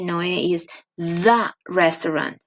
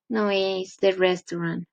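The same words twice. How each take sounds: First: The word 'the' is strong and stressed. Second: The word 'the' is weak and unstressed. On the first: The speaker calls it right. "you have to say" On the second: The speaker calls it wrong. "it's not the same to say"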